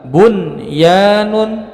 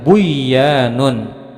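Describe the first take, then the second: First: The n is pronounced clearly before the y. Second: The n is dropped and merged into the y. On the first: The speaker calls it right. "dibaca jelas" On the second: The speaker calls it wrong. "tidak boleh dibaca dengan buyanun"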